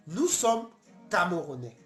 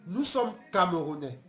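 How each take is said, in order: Both takes have the same delivery.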